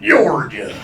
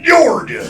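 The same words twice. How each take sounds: First: Georgia leaned on with a heavy first syllable; hard-sounding Georgia. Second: High, loud, drawn-out Georgia; hammed-up proclamation. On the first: Acted. Southerner hardening the name, Georgia with heavy first syllable. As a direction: hit the start of Georgia hard. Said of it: "make it sound real hard". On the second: Southerner naming the state, high loud Georgia. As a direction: proclaim Georgia like a proud town namer. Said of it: "What are we gonna name this bitch?".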